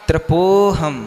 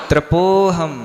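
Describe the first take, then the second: No difference in how they are said.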